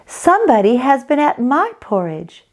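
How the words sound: It is said in a medium-sized voice.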